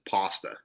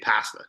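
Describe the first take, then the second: First: Pasta is said with an Italian-style vowel. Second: Pasta is said with a typical Canadian vowel. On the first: This is how one unusual friend says it. "You're one of the only Canadians I know, Fuad, that says pasta" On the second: This is how most Canadians say it. "most Canadians say pasta"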